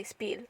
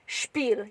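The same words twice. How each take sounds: First: "Spiel" begun with a plain s, like "speel"; English-style mispronunciation. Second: "Spiel" begun with sh, like "shpeel"; German pronunciation. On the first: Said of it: "You wouldn't say Spiel". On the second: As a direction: say "Spiel" with an h sound after the s: shpeel. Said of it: "as if you're saying it with a H". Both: Shown as a demonstration.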